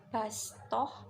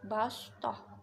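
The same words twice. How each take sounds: First: The s sound is light and plain. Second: The s sound is heavy and emphatic. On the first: The speaker calls it right. "cara membacanya sin bukan sod. Jadi bastoh" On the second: The speaker calls it wrong. "tapi bukan bastoh"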